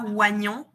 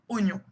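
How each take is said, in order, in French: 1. Le 'i' de la première syllabe se prononce. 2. Le 'i' de la première syllabe est muet. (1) "on dit pas oignon" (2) "Le i, il se prononce pas"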